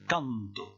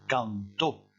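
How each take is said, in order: First: The stress is on the first syllable. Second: The stress is on the last syllable. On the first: "je vais insister sur le A" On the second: "je vais insister sur le O"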